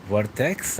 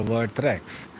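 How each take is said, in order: First: Vertex with no R after the T; Vertex without the R. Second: Vertrex with an R after the T. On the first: Viewer asking the streamer how to say the name, Vertex without R. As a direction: say Vertex, dropping the second R. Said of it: "they forget the R in between". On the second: Viewer asking the streamer how to say the name, Vertrex with R. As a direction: say Vertrex, keeping the second R. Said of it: "my YouTube name is Vertrex". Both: Retold or imitated.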